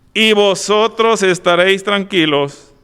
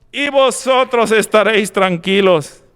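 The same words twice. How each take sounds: No difference in how they are said.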